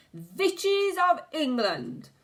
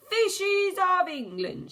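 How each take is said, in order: First: Slow, high, loud call to the hall; witch's shout. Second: Even higher, loud, drawn-out yell; witch's yell. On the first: The Grand High Witch calls the room to order, shouting. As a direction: summon the crowd with a witch's shriek. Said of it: "shouted the Grand High Witch". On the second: The Grand High Witch repeats her call, yelling higher. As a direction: yell it higher the second time. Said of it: "she yelled". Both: A narrator's reading.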